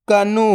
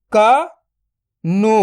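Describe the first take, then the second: First: Said in the usual way. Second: "कनु" split into क, then नु, very slow; drawn-out breakdown of "कनु"; syllable by syllable. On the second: Shown as a demonstration. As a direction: sound out क ... नु with a long gap. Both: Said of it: "तो मिलके बन जाएगा".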